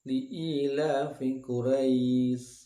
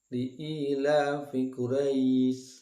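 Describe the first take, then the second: First: The final vowel is held for two beats. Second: The same.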